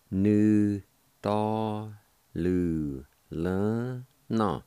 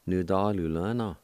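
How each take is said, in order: First: Nu, ta, lu, le, na with each syllable held and set apart. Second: Said in the usual way. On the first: Shown as a demonstration. Teacher pronouncing a new word for learners, syllable by syllable. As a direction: sound out "Nu, ta, lu, le, na" one syllable at a time. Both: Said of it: "it's pronounced like this".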